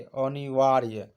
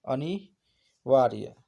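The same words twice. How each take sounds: First: अनिवार्य said slowly and firmly; slow careful pronunciation. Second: अनिवार्य stretched out even slower and firmly, each syllable held; extra slow emphatic repeat. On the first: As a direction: say अनिवार्य slowly with a falling end. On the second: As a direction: drag अनिवार्य out to drill it in. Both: Shown as a demonstration. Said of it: "जिसका निवारण न किया जा सके".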